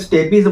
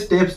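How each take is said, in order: First: The word is said with two syllables. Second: The word is said with one syllable. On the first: This is how many other people say it. "कई लोग उसे स्टेपीज बोलते हैं" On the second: This is the pronunciation the speaker chooses to use. "मैं pronunciation यहाँ पे स्टेप्स जो है वो करने वाला हूँ"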